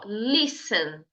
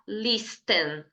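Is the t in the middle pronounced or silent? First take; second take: silent; pronounced. First: The t in the middle is silent. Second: The t in the middle is pronounced. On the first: The speaker calls it right. "fala assim, ó, listen, listen. Pronto, esse é o certo" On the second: The speaker calls it wrong. "tem um T ali no meio, né? Só que você não vai falar listen"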